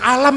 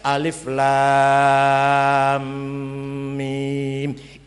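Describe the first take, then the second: First: The letters are run together into one short word. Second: Each letter is said separately by its name. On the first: It is read without the rules of recitation. The speaker calls it wrong. "nek ora ana ilmu tajwid kita baca alam itu" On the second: It is read following the rules of recitation. The speaker calls it right. "Bacanya alif lam mim"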